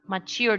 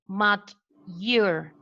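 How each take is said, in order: First: The t and y merge into a ch sound. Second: The t and y sounds stay separate. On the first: "This is how you will find it on dictionaries" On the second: "You won't find it like that"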